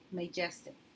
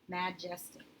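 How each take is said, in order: First: The first vowel is a long a sound. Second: The first vowel is a short a sound.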